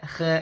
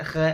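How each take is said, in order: First: The letter is sounded thin and light. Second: The same.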